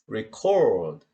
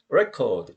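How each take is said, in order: First: The stress is on the second syllable. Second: The stress is on the first syllable. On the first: It is used as a verb. "record 그러면 동사로 쓰이는 거죠" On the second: It is used as a noun. "이때 명사는 강세가 이름절에 있어요"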